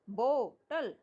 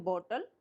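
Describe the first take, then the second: First: bottle broken slowly into bo, then tal; split into syllables. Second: Said in the usual way. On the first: Shown as a demonstration. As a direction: pause between the two parts of bottle. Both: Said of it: "टल अलग बोला जा रहा है".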